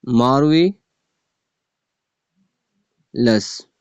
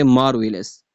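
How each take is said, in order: First: "marvellous" as "marve", a long pause, then "lous"; split into two parts. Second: Said in the usual way. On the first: Shown as a demonstration. Teacher counting two syllables, "marvellous" split by a long pause. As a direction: say "marvellous" very slowly, broken before its last syllable. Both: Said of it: "marvellous में टू syllable है".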